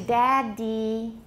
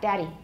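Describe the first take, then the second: First: The middle D is held long. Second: The middle D is a quick, short tap. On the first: "we could lengthen it if we wanted to" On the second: "If we say it quickly, we're not lengthening the double D there. It is a tap"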